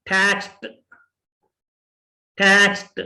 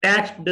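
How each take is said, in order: First: टैक्स्ड ending in a t; टैक्स्ड said as takst; टैक्स्ड with a crisp final t. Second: टैक्स्ड ending in a d sound; टैक्स्ड with a voiced final d; wrong d ending. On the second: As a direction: say टैक्स्ड as taxd. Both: Shown as a demonstration. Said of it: "टैक्स्ड नहीं है".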